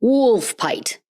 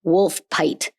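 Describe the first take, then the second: First: "Wolfpite" repeated with a higher questioning lift; "Wolfpite" said again, puzzled; skeptical repeat. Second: Said as "Wolfpite", wool with an F, pite like kite; "Wolfpite" with an F sound and long i; "Wolfpite" spoken carefully as the correct form; pronunciation. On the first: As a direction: echo "Wolfpite" doubtfully, pitch up. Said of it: "even though there's no F in this". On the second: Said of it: "should be pronounced". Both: Shown as a demonstration.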